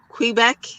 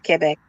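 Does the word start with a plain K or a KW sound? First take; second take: KW; K. First: The word begins with a KW sound. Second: The word begins with a plain K sound. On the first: The speaker calls it wrong. "like when you say Queen" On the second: The speaker calls it right. "It's ke"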